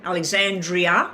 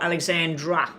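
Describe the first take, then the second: First: Alexandria with a final "ee-uh" ending; name said as Alexandria. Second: Alexandra ending plainly in -dra; name said as Alexandra. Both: Shown as a demonstration. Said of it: "I didn't know if it was".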